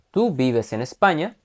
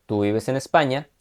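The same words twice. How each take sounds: First: "España" lifted as a question; question tune. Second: Falling statement tune on tú vives en España. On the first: Teacher reads the same words as a rising question. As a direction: raise the pitch at the end of "¿tú vives en España?". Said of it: "Esta es una pregunta que dice". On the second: Teacher reads the statement with a falling tune. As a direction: let "España" drop at the end. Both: Shown as a demonstration.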